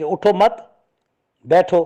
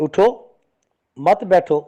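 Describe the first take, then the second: First: اٹھو مت run together, a stop, then بیٹھو; pause after مت. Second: اٹھو, a clear stop, then مت بیٹھو in one go; pause after اٹھو. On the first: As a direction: join مت to اٹھو and break before بیٹھو. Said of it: "مت پہ وقف کرتا ہے". (مت پر وقف، پھر بیٹھو) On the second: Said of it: "اٹھو پر وقف نہیں کرتا". (اٹھو پر وقف، مت بیٹھو ملا کر) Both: Shown as a demonstration.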